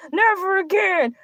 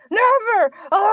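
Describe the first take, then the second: First: Said in the usual way. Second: Mock shout. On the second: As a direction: bark out NEVER with finality.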